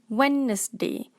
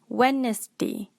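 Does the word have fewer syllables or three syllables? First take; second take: three; three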